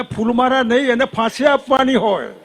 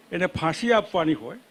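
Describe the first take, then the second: First: Higher and louder, falling firmly on આપવાની; insistent repeated demand, louder; emphatic demand. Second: Said in the usual way. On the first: Real, not acted. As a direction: hammer home એને ફાંસી આપવાની હોય with a hard fall.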